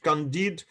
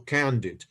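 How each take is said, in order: First: The stress is on the second syllable. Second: The stress is on the first syllable. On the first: "the stress on the second syllable because it was written in French" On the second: "but we can say also Candid"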